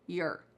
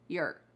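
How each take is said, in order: First: The vowel is reduced, rhyming with 'her'. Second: The same.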